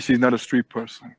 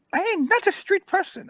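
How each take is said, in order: First: Said in the usual way. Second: Very high, squealing mock protest; offended old woman. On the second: Woman denying she's a street person, high indignant squeal. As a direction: squeal it like an affronted old lady. Then acts out the woman's words.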